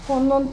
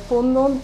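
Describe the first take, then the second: No difference in how they are said.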